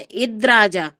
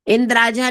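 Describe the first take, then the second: First: No n sound comes before the d. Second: An n sound comes before the d. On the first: The speaker calls it right. "ना नहीं आना चाहिए उसमें" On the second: The speaker calls it wrong. "इंद्राजा नहीं है"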